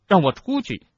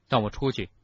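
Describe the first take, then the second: First: High, loud order to be let out; loud demand. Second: Cold, controlled demand; icy. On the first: Harry demands release from the office, high and loud. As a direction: demand it forcefully, pitched high. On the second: Harry demands release, icy and as calm as the headmaster. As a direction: say it icily, without raising the voice. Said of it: "语气冷冰冰的". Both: A narrator's reading.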